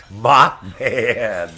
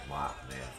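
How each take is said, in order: First: Mothman called out loud, falling; punchline. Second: Mothman muttered much softer and lower; soft low Mothman aside; quiet repeat. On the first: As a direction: call out Mothman as a joke. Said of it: "naming the bug joke". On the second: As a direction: repeat Mothman under the breath. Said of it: "repeating the joke quietly". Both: Real, not acted.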